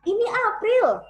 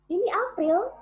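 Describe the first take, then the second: First: It is said with the most vocal power. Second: It is said with moderate vocal power.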